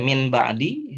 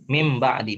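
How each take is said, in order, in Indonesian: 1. Nasal sebelum b diucapkan sebagai n. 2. Nasal sebelum b diucapkan sebagai m. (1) "kalau seandainya kita baca min ba'di, oleh orang juga paham" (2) "Konsekuensi dari hurufnya itu diiklabkan"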